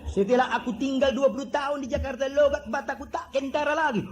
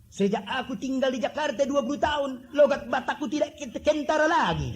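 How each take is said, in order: First: Put-on higher, heavy Batak accent, held throughout; thick Batak accent. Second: Put-on Batak accent, higher, with a laugh breaking through. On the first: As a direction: do the Batak man's strong accent straight. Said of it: "Begitu medoknya". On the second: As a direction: imitate a Batak man in his thick Batak accent, chuckling. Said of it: "Saya ingat ada satu orang Batak".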